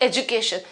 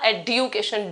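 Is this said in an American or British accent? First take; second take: American; British. First: The d is softened into a j sound. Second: The d is said as a clear dy sound. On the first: "अगर आप American English की बात करते हैं तो you'll be pronouncing it" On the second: "British English के अंदर अगर आप इसे प्रोनाउंस करेंगे तो ये होगा"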